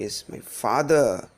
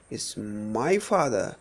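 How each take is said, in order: First: Single out "father"; stress on FATHER. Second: Slow, with "my" stretched and raised; single out "my"; stress on MY. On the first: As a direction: pass over "my", lean on "father". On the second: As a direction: lean hard on "my" before "father". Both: Shown as a demonstration. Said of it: "That is how the meaning changes".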